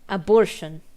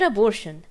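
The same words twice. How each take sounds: First: It is split, with a break after 'a'. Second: It is said smoothly as one word. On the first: "It says a space abortion" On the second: "So not abortion"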